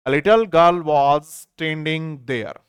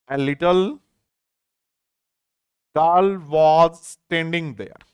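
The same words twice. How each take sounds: First: Very slow, read through in one go; now read the whole sentence slowly. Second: Very slow, a long pause after "A little"; slow chunked reading. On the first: Teacher rereading the full sentence to students, slow and whole. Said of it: "एक छोटी लड़की वहां खड़ी थी". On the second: Teacher splitting the sentence to explain little, very slow. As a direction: break the sentence in two for the class. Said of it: "और समझते हैं". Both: Shown as a demonstration.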